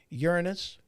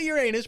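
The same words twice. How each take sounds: First: It sounds like 'urine-us', stressed at the start. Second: It sounds like the phrase 'your anus'. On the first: It names the planet plainly. The speaker calls it right. "the actual planet is pronounced Uranus" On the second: It makes a rude joke about a body part. The speaker calls it wrong. "I did pronounce that wrong"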